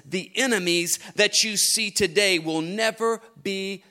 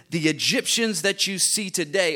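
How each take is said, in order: First: "enemies" pressed a little harder; stress on enemies. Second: Said in the usual way. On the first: Shown as a demonstration. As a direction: lean into "enemies" as the new word. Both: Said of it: "or I could say it like this".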